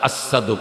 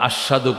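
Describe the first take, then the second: First: The middle consonant is an 's' sound. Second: The middle consonant is a 'sh' sound. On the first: Air escapes through a hole in the tongue. The speaker calls it wrong. "আসাদু কয়, আসাদু কারণ জিব্বাটা ছিদ্র" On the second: This is the correct pronunciation. The speaker calls it right. "ওরা আশহাদু কই তার না"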